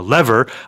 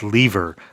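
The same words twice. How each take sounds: First: It is said in a non-British way. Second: It is said the way British speakers say it.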